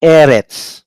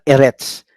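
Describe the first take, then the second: First: "Eretz" with a long, firm first E; "Eretz" as EH-rets; stress on first syllable. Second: "Eretz" with a quick E, weight on retz; "Eretz" as eh-RETS, shown as wrong; stress on last syllable. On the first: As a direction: lean on the opening of "Eretz". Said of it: "pronounce it as". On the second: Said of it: "Okay, not Eretz". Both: Shown as a demonstration.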